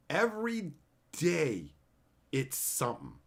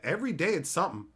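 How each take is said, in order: First: Slow weary repeat. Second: Quick first take. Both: Shown as a demonstration.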